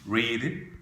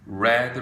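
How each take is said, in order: First: The vowel is long, sounding like 'reed'. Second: The vowel is short, sounding like 'red'. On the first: It is the present form. "발음이 바뀌어요" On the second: It is the past form. "과거나 과거분사가 되면 발음이 빨간색 단어와 똑같이 red란 사운드"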